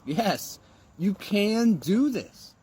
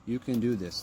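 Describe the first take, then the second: First: "do" stretched slow and higher; emphatic affirmation. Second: Said in the usual way. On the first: Shown as a demonstration. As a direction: lean hard into "you can do this". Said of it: "The positive self-talk". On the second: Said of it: "with the positive self-talk".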